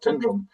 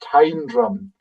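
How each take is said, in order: First: The first syllable sounds like 'tin'. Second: The first syllable sounds like 'time'. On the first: The speaker calls it wrong. "it's not Tindrum" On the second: The speaker calls it right. "It is Time Drum"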